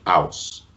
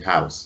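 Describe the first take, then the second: First: The word starts without an H sound. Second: The word starts with a clear H sound. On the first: This is the Nigerian Yoruba pronunciation. "They don't pronounce the H" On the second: This is the British pronunciation. "we'll say house in the British Standard English"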